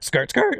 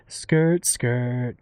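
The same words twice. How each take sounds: First: It is said with high-energy sound-effect punch. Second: It is said in a soft, emotional way.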